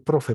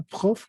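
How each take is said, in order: First: "profe" with tapped R and final E sounded; Spanish profe. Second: "Prof" in one syllable, throaty French R. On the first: Teacher comparing with our word, Spanish sounds. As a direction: say "profe" in two Spanish syllables. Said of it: "como decir profe para nosotros". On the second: Teacher giving the French short form, one syllable. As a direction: cut "Prof" off at the F, no final E. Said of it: "Puede decirle profesor o prof". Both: Shown as a demonstration.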